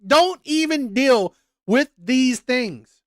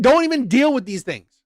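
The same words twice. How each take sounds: First: Slowed right down, leaning on "Don't"; slow emphatic repeat. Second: Said in the usual way. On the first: Shown as a demonstration. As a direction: drag out "Don't even deal" to hammer it home.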